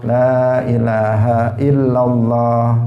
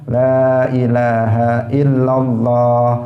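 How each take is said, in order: Both takes have the same delivery.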